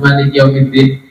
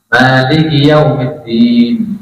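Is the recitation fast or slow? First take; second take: fast; slow. First: It is recited quickly and briskly. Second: It is recited slowly and unhurriedly. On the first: It suits a large congregation at tarawih. "harusnya cepat" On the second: It suits praying alone or a small group. "Ya pelan-pelan"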